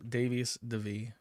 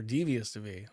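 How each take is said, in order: First: Davius, first syllable rhymes with "day"; first reading of the name. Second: Devious, first syllable rhymes with "see"; Devious pronounced DEE-vee-us; alternative reading of the name. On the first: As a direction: say Davius with a long AY, like Dave. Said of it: "I don't know why I said". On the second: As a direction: say Devious with a long EE. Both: Shown as a demonstration.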